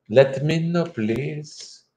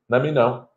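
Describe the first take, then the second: First: Higher-pitched attempt at an Australian-English accent; put-on Australian English accent. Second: Said in the usual way. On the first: Shown as a demonstration. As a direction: have a go at Australian English, trailing off softer. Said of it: "working on my Australian English thing".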